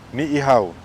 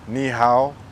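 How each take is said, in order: First: Two separate 'ee' vowels are said at the start. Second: A single 'ee' vowel is said at the start. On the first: The speaker calls it right. "That's how you say that word" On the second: The speaker calls it wrong. "It's often mispronounced as Nihao"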